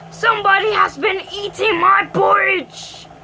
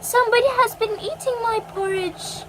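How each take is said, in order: First: It is said in a deep, growly voice. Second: It is said in a quiet, gentle voice.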